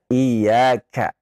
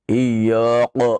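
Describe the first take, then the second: First: The k sound is light and thin. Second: The k sound is heavy and deep. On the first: The speaker calls it right. "Harusnya iyyaka, dibaca tipis" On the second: The speaker calls it wrong. "dengan tebal ... ini keliru"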